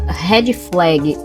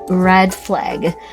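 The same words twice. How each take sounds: First: It is said with a Portuguese-style pronunciation. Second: It is said with an English-style pronunciation.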